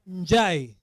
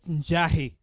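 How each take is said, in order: First: The two vowels run together without an h. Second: An h sound separates the two vowels. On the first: The speaker calls it right. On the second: The speaker calls it wrong. "Not Njahi"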